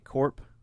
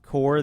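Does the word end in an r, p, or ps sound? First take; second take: p; r. First: The word ends in a p sound. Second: The word ends in an r sound. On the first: The speaker calls it wrong. "they say corp" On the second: The speaker calls it right. "instead of saying core"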